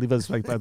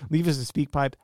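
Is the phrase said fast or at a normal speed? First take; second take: fast; normal. First: The phrase is spoken quickly. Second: The phrase is spoken at a normal speed.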